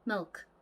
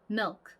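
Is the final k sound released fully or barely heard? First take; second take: barely; barely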